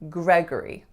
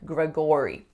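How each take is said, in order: First: The second syllable is reduced to schwa. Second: The second syllable has a full or vowel. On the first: The speaker calls it right. "the second syllable has to reduce to schwa" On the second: The speaker calls it wrong. "we don't say that O or or sound"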